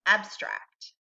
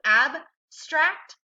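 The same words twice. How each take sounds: First: Said in the usual way. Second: "abstract" slowly split, loud and distinct; syllable by syllable. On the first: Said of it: "And together". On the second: Shown as a demonstration. Teacher models "abstract" for students, one syllable at a time. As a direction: say "abstract" in two parts, ab, then stract. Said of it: "one syllable at a time".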